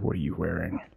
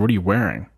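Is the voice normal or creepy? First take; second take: creepy; normal. First: It is said in a creepy voice. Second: It is said in a normal voice.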